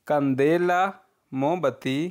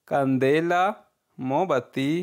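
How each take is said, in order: Both takes have the same delivery.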